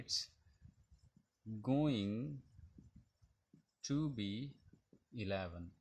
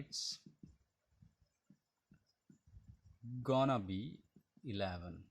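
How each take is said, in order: First: 'Going to' is said fully as two words. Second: 'Going to' is shortened to 'gonna'.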